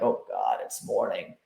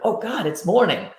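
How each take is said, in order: First: It sounds weary and dreading. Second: It sounds excited and happy.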